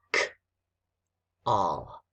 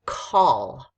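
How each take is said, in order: First: "K-all" split, bare k, long pause, then all; "K-all" broken into two separate sounds; sounded out. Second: Said in the usual way. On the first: Shown as a demonstration. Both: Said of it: "the next word with our spelling is".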